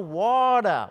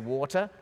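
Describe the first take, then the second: First: It is said in a Texan American accent. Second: It is said in a non-Texan English accent. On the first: "They say, oh" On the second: "I say"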